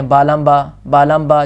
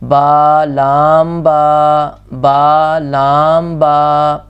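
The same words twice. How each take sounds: First: با لام با rattled off quickly; rushed reading. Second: با لام با drawn out, each letter held; slow calm reading. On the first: Teacher imitating students who read too fast. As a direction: hurry through the letters carelessly. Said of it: "جلدی سے پڑھ جاتے ہیں". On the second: Teacher showing the calm correct reading. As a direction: read calmly and slowly. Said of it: "آہستہ سے سکون سے پڑھیں گے". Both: Shown as a demonstration.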